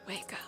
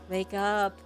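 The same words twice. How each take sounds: First: It is said quietly. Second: It is said moderately loudly.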